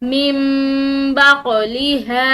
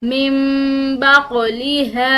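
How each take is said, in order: Both takes have the same delivery.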